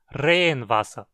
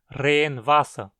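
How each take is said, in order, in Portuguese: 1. Só a primeira parte tem acento, uma palavra só. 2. As duas partes têm acento, como duas palavras. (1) "soando como uma palavra só" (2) "como duas palavras"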